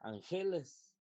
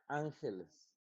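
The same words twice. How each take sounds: First: The stress falls on a later syllable. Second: The stress falls on the first syllable. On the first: The speaker calls it wrong. "Entonces tampoco es" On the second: The speaker calls it right. "esta es la sílaba tónica"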